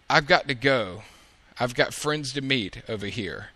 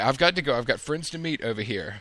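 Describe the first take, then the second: First: It is spoken slowly and deliberately. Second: It is spoken at a normal, quicker pace. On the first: The speaker calls it wrong. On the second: The speaker calls it right.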